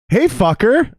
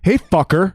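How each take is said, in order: First: It is said in a warm, friendly tone. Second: It is said in a hostile, angry tone. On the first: The speaker likes the listener. "Oh, I like you" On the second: The speaker is mad at the listener. "Now you're mad at me"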